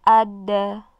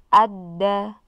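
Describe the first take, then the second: The two takes are said the same way.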